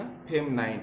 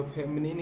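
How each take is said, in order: First: फेमनाइन with a long "-nine" ending; फेमनाइन, last syllable rhyming with "line"; pronounced FEM-nine. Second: फेमिनिन with a short "-nin" ending; फेमिनिन, last syllable rhyming with "pin"; pronounced FEM-nin. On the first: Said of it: "कुछ लोग फेमिनाइन भी बोलते हैं". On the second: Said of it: "इसको फेमिनिन भी बोलते हैं". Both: Shown as a demonstration.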